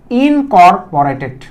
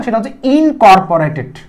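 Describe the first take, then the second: First: ইনকর্পোরেটেড spelled out slowly, every syllable drawn apart; slow new word. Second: Said in the usual way. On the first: Shown as a demonstration. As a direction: say ইনকর্পোরেটেড slowly so students can catch each sound. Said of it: "নতুন একটা শব্দ দিচ্ছি". (ইনকর্পোরেটেড ধীরে ধীরে প্রতিটি অক্ষর আলাদা করে) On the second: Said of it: "খেয়াল করে দেখো".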